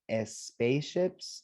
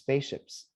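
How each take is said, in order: First: An extra vowel is added before the s. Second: The word starts directly with the s sound. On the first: The speaker calls it wrong. "There's no E at the beginning. It's not S spaceships" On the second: The speaker calls it right. "it's just spaceships"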